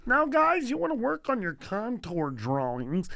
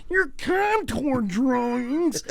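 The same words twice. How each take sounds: First: Teacher's voice jumping up high at the start; art teacher impression. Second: High, slow, exaggerated mimicry; mocking teacher impression. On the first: Teacher addresses his art class, imitated voice. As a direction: pitch up the call to the class, then settle. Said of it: "Was it doing his, his voice?". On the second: Schoolboy mocks the art teacher's drawing instruction, exaggerated impression. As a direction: drag it out high to make fun of the teacher. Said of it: "his voice".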